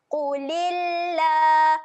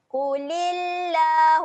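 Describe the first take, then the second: First: Slow drawn-out recitation of "Qulillah"; Quranic recitation. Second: Chanted recitation. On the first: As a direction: draw out the lam in "Qulillah" slowly. (bacaan tajwid perlahan "Qulillah") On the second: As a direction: sing "Qulillah" slowly with the lam held long. (chanted, lagu bacaan "Qulillah" dipanjangkan) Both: Shown as a demonstration. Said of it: "panjangkan sebanyak dua harakat".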